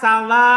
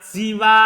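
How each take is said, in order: First: It starts with a and ends long with hamzah. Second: It starts with i and ends long. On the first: "memfathah sinnya ... Dia baca panjang. Pakai huruf hamzah di akhirnya" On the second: "yang mengkasro sinnya si. Kemudian dia mat"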